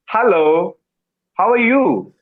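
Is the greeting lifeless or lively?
lively. The greeting sounds warm and lively.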